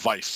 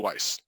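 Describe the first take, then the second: First: The word is said the German way. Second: The word is said the English way.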